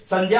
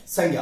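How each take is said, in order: First: संज्ञा said as "sanjya", with a j sound; correct formal pronunciation. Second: संज्ञा said as "sangya", with a hard g; everyday pronunciation. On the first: Teacher shows the proper pronunciation, संज्ञा as "sanjya". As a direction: say संज्ञा with j-ya in place of g-ya. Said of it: "इसकी सही pronunciation की हम बात करें". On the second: Teacher gives the working everyday form, संज्ञा as "sangya". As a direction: say संज्ञा with g-ya, no j sound. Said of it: "काम चलाने के लिए क्या बोल देते हैं". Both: Shown as a demonstration.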